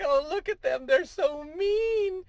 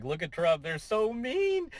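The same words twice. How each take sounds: First: Very high, slow falsetto mock whine; hammed-up high whiny protester; mock whiny liberal. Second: Higher, drawn-out mock complaint; a hint of a whiny critic. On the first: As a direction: whine so mean in a silly falsetto, dragging it. Mocking opponents' voice. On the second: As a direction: stretch out so mean mockingly, slowly. Mocking news coverage.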